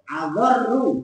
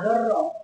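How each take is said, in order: First: The word ends with an 'oo' vowel. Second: The word ends with an 'ah' vowel. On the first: The word is in the nominative case as a predicate. The speaker calls it right. "adorru bukan adorro loh" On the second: The word is in the accusative case. The speaker calls it wrong. "itu salah"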